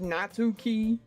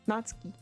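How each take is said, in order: First: The middle 'tsu' syllable carries the stress. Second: The middle 'tsu' syllable is not stressed. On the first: "I say things in America way, which you know, we pronounce it on the U" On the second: "I'll try and pronounce it like Natsuki"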